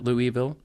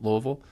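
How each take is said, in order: First: The name is said in a rejected pronunciation. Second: The name is said in the endorsed pronunciation. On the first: The speaker calls it wrong. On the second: The speaker calls it right. "that's how you say it"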